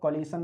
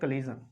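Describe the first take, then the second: First: The ending is said with a 'shun' sound. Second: The ending is said with a 'zhun' sound. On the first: The speaker calls it wrong. "इसको कोलिशन नहीं पढ़ते" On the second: The speaker calls it right. "इसका जो pronunciation होगा वो जा और ना से होगा"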